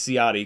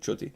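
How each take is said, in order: First: The name is said with an American pronunciation. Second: The name is said with an Italian pronunciation. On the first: "that's the American way of saying it" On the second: "It's actually Chuti"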